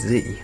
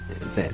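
First: The letter is pronounced 'zee'. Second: The letter is pronounced 'zed'. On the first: This is the American way of saying it. "the other way of saying it, which I see as the American way, is Z, Z-E-E" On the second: This is the British way of saying it. "notice how I say Z as in Z-E-D"

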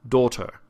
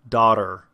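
First: It has a closed, standard British vowel. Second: It has a flatter, street American vowel.

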